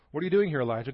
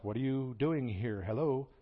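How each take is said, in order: First: Louder call that rises on doing; God calling to Elijah. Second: Slow, puzzled ask with a light Hello; a nudge to someone who isn't listening; God asking again. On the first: God calls into Elijah's cave, louder and rising. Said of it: "God says". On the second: God repeats his question to Elijah, slow and puzzled. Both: Retold or imitated.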